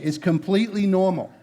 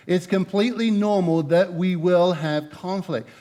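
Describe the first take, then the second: First: Said in the usual way. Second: "completely" leaned on, the whole line slowed; slow emphasis. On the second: Shown as a demonstration. Pastor reassuring the couples that conflict is normal, slow and deliberate. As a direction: spell out "completely normal" slowly, weighing each word.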